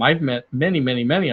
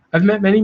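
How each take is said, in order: First: Said in the usual way. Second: "many" pushed higher and louder; emphatic repeat. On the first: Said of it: "I've met many, many, many who think". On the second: Shown as a demonstration. Repeating himself to drive the point home about overconfident salespeople, emphatic.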